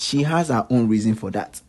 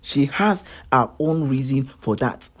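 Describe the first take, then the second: First: Said in the usual way. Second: Slow, deliberate "She has her own reason for that"; emphatic repeat. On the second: Real, not acted. Vlogger defending her to critics, slow and emphatic. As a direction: spell out "her own reason" word by word, slowly.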